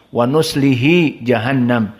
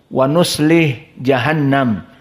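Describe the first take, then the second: First: The h is followed by an i vowel. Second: The h has no vowel after it. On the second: "Hak disukunkan"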